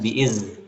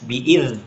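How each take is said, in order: First: The consonant is a buzzing z sound. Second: The consonant is made with the tongue tip out. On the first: The speaker calls it wrong. "bukan bi'iz" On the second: The speaker calls it right. "di ujung lidah bi'ir"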